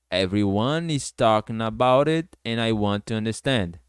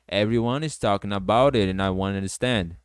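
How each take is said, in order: First: The sentence is spoken at a slower pace. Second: The sentence is spoken at a faster pace.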